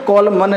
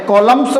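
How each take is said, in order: First: An n sound is heard after the m. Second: No n sound is heard after the m. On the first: The speaker calls it wrong. "कॉलमन नहीं बोलेंगे" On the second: The speaker calls it right. "कॉलम्स बोलेंगे"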